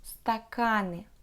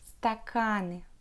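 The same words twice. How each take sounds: No difference in how they are said.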